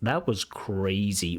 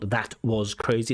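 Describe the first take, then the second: First: The T at the end of 'that' is dropped. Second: The T at the end of 'that' is pronounced. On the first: The speaker calls it right. "really nice dropping of that T" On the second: The speaker calls it wrong. "It's not"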